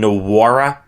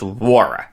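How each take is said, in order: First: The name starts with a sounded N. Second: The name starts without an N sound. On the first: The speaker calls it wrong. "I was calling him Jordan Nwora on Friday, and that's wrong" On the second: The speaker calls it right. "It's Nwora. The N is silent"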